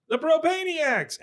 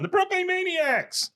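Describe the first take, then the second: First: High, drawn-out mock group cheer; crowd cheer. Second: Very high, drawn-out stubborn holdout; Peggy. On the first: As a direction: shout the new name as a toasting crowd. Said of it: "everybody around them". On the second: Retold or imitated. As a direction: sing out your own version over the crowd, imitating. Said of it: "one voice you hear that's not saying that".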